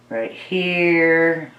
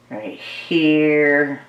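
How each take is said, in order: Both takes have the same delivery.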